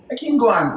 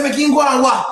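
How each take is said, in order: First: Said in the usual way. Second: Higher, indignant retort; retold incredulous comeback; challenging echo. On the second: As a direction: throw the words back as a raised challenge. Echoes the remark back, challenging it.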